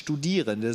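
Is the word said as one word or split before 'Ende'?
one word. It is said smoothly as one word. It names the students. "lese ich nicht Studierende"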